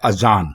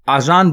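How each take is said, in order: First: The first vowel is short. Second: The first vowel is long. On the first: The speaker calls it right. "दुरुस्त लफ्ज है अजान" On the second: The speaker calls it wrong. "आजान बिल्कुल गलत है"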